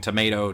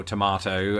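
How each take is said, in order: First: Tomato as "tuh-MAY-toh"; American tomato. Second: Tomato as "tuh-MAH-toh"; British tomato. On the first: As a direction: say "Tomato" with a long AY. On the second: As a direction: say "Tomato" with an open AH. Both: Shown as a demonstration. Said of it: "so much more to that song".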